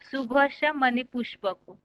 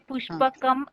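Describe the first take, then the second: First: The word ends in a plain vowel. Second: The word ends with an added m sound. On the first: The speaker calls it right. "पहले सही पढ़े थे" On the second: The speaker calls it wrong. "पुष्पकम ऐसे बाद में आपने दोबारा बोला था"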